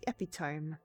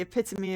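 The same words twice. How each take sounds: First: It has three syllables and ends like 'tome'. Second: It has four syllables and ends in 'mee'. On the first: "when you first see it instead of hearing it" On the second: "I said epitome"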